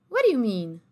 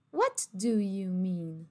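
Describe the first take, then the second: First: "What do you mean" quick, "wod i u mean"; linked quick. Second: "What do you mean" very slowly, each word full; slow careful. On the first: Teacher shows the linked option, quick and casual. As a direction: toss it off fast. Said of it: "Você pode falar". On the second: Teacher shows the careful option, slow and clear. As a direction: stretch it out clearly. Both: Shown as a demonstration.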